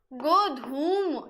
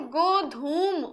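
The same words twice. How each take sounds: First: गोधूम drawn out very slowly, each syllable clear; slow spelled-out word. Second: Said in the usual way. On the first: Shown as a demonstration. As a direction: stretch गोधूम out for the class. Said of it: "ठीक है, ये तत्सम होता है". (बहुत धीरे, साफ़ उच्चारण में गोधूम)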